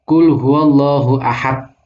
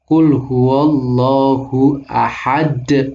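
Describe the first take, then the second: First: The final d stops flat without an echo. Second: The final d bounces with a slight echo. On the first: The speaker calls it wrong. "Itu salah, nggak ada kolkolah" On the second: The speaker calls it right. "ini benar. Ahad, benar ada kol-kolahnya"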